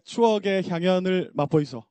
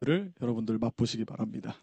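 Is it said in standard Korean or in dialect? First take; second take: dialect; standard. First: It is said in Gyeongsang dialect. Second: It is said in standard announcer Korean.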